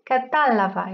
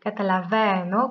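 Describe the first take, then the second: First: Catalava with the stress moved back to "ta"; accent the third-from-last syllable of catalava. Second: Catalaveno with the stress on "ve". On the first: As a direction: say catalava as ca-TA-lava. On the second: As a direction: say catalaveno as cata-la-VE-no. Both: Shown as a demonstration. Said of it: "l'accent a changé de place".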